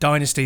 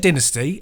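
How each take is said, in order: First: It is said with an American pronunciation. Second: It is said with a non-American pronunciation. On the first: "is more of the American pronunciation" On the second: "I say Dynasty"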